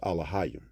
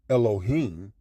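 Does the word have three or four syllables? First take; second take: four; three. First: It is said with four syllables, starting with a. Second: It is said with three syllables, starting with e. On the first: This is the ancient form of the word. The speaker calls it right. "to pronounce it properly in the ancient tongue" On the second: This is a later form of the word. The speaker calls it wrong. "the transliteration of the um, Yiddish or the uh, Syrian Hebrew"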